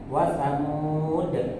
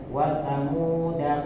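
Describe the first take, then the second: First: The word ends on a consonant, vowel dropped. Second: The word ends with a short vowel. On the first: The reader stops on this word. "Kalau misalnya berhenti pada lafaz wasamuda" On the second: The reading continues without stopping. "dibaca pendek"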